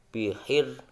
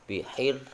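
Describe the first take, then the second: No difference in how they are said.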